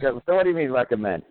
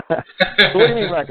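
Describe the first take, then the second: First: Said in the usual way. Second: Breaking into a high laugh mid-line; giggling as the question starts. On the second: Real, not acted. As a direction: laugh through the words. Laughing retelling of own joke.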